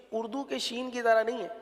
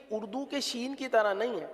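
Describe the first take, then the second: No difference in how they are said.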